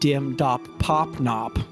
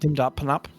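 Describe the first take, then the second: First: Each syllable is said separately and carefully. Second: The syllables run together quickly and suddenly. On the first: The speaker calls it wrong. "not like dim dop pop nop, like your friend going, "I'm going to Puerto Rico,"" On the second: The speaker calls it right. "very alliterative, sudden pronunciation"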